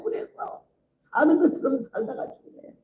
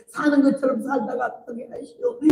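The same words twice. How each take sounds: First: Said in the usual way. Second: Tearful plea. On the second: Retold or imitated. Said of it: "울면서 기도를 하더니".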